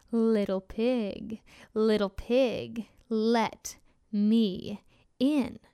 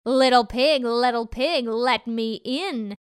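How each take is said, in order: First: Slow, heavy wolf voice; menacing hungry wolf, drawn out. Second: Louder, angrier wolf growl. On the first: Wolf voice in story. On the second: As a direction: demand it, getting angrier. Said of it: "this time closer and angrier". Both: Acted.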